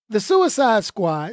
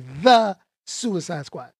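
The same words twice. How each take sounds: First: No extra stress falls on "the". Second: Strong emphasis falls on "the".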